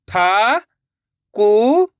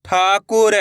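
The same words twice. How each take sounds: First: ठाकुर in slow, separated syllables. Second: Said in the usual way. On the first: Shown as a demonstration. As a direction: sound out ठाकुर, pausing between syllables. (ठाकुर को एक-एक अक्षर अलग करके) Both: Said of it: "एक अक्षर का उच्चारण करके".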